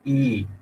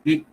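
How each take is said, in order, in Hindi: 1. स्वर लगभग दुगुना लंबा खींचा जाता है। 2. स्वर बहुत जल्दी बोला जाता है। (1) "दो मात्राओं तक लंबा खींचना है तो मैं ई कर सकता हूँ" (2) "छोटी सी ई होगी"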